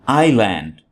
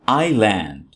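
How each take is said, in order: The two takes are said the same way.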